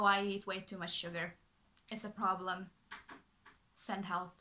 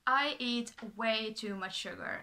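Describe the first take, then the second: First: Sugar said flatly, serious, no joke; dead serious. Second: Said in the usual way. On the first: Shown as a demonstration. Correcting viewers who think it's cute, dead serious. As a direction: restate it as a real problem. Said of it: "but no". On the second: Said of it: "it sounds, like, kinda quirky and cute".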